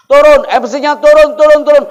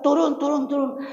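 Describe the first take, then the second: First: Shouted jeering. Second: Mock crowd yell. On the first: Acted. Villagers drive the boy MC off the stage, shouting. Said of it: "mereka teriak mengusir saya". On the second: Retelling how villagers yelled at the boy, mock high shout. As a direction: imitate a yelling crowd without the volume. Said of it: "Mereka teriak".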